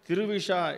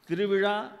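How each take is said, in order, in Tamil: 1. கடைசி மெய்யெழுத்து ஒரு sh ஒலி. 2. கடைசி மெய்யெழுத்து ஒரு retroflex zh ஒலி.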